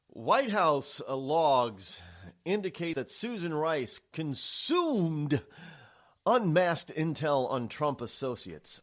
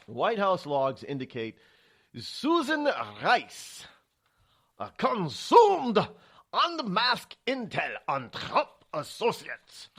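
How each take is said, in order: First: Said in the usual way. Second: Slow, drawn-out, higher mock German accent reading the headline; hammed-up German accent, every word stretched; bad German accent. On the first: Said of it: "I love how they write that". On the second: Shown as a demonstration. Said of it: "it's my very bad German accent".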